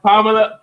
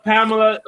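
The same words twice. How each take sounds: First: Said in the usual way. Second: Pamela with a Caribbean lilt, higher; Caribbean accent. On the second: Retold or imitated. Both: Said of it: "I always put my, uh, Caribbean accent in".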